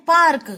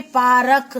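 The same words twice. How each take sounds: First: पार्क said with र and क joined, paark; पार्क said as one syllable with the r cluster; पार्क said right, no vowel after र; correct cluster. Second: पारक with a full vowel between र and क, pa-ra-k; पारक said as three syllables, pa-ra-k; पारक said wrong, r and k split by a vowel; wrong spelling-sound. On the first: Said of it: "अब हमको लिखना है पार्क". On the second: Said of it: "जो कि हो गया गलत". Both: Shown as a demonstration.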